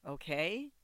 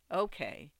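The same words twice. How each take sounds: First: OKAY rising as a question. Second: OKAY falling as an answer; agreeing. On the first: Sasha seeks Bobby's agreement, questioning rise on "okay". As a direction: lift the end of "okay" to seek agreement. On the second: Bobby answers Sasha's question, falling, agreeing "okay". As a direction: let "okay" drop in simple agreement. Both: A narrator's reading.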